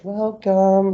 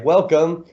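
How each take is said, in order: First: It sounds timid and submissive. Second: It sounds normal and confident.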